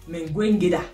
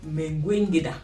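Both takes have the same delivery.

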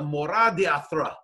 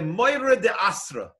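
First: The first vowel is a plain 'o'. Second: The first vowel is an 'oy' diphthong.

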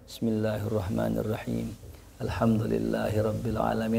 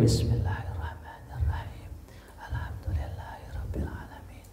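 First: It is said louder, clearly audible. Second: It is said softly, barely audible.

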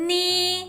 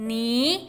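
First: The pitch stays high and level. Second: The pitch rises from middle to high.

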